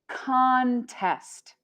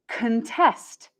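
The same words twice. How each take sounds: First: The stress is on the first syllable. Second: The stress is on the second syllable. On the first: It is another word for competition. "the noun contest" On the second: It means to oppose something. "the verb contest"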